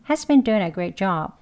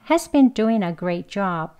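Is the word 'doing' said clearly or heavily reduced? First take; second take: heavily reduced; clearly. First: The word doing is very weak and fast. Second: The word doing is said clearly, linked to a.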